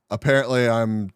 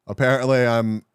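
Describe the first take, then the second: No difference in how they are said.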